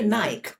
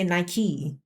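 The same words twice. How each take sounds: First: It is pronounced the British way. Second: It is pronounced the American way. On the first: "We would say Nike" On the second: "I think Americans say Nike"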